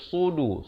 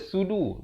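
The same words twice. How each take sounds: First: It begins with a heavy, emphatic s sound. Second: It begins with a plain, light s sound. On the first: The speaker calls it right. "Sini kena baca sudu" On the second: The speaker calls it wrong. "Jangan baca sudu. Jangan baca huruf sin"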